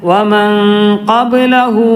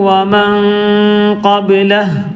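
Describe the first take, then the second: The two takes are said the same way.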